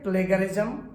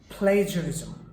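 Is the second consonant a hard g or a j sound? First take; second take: hard g; j sound. First: The second consonant is a hard g sound. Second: The second consonant is a soft j sound. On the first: The speaker calls it wrong. "It is wrong" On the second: The speaker calls it right. "The pronunciation is প্লেজারিজম"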